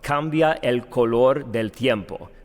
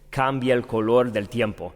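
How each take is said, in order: First: Vowels meeting between words are kept apart. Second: Vowels meeting between words are run together. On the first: The speaker calls it wrong. "would never be spoken that way" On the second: The speaker calls it right. "It would be spoken"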